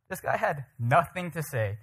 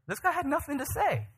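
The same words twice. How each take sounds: First: Slow, measured repeat in normal pitch; deliberate, weighty delivery at a slow pace; slow emphasis. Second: Pitched way up in amazement; high, incredulous exclamation; high-pitched incredulity. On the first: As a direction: spell it out, drawing out "nothing". Repeats line slowly for emphasis. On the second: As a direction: marvel at it in a high voice. First of two emphatic takes. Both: Real, not acted.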